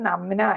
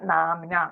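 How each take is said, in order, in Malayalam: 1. ആദ്യത്തെ സ്വരം ഹ്രസ്വമാണ്. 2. ആദ്യത്തെ സ്വരം ദീർഘമാണ്. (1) "നമ്ന അല്ല" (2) "നാംന നാമം"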